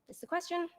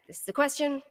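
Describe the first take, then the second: First: "this is a question" pitched high and soft, as a question; questioning intonation. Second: Said in the usual way. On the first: Shown as a demonstration. Lecturer shows intonation changing dialogue act, "this is a question" asked high. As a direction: ask "this is a question" in a much higher, softer voice. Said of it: "you kind of get the idea". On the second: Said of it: "dialogue acts. Again".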